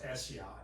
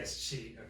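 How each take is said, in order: First: The last syllable does not sound like cheat. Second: The last syllable sounds like the word cheat. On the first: The speaker calls it right. "the word is pronounced eschiat" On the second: The speaker calls it wrong. "I say escheat"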